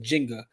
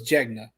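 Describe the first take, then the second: First: The n sound comes before the g sound. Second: The n sound comes after the g sound. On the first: The speaker calls it wrong. "I didn't know I said Jenga" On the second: The speaker calls it right. "so it's Jegna"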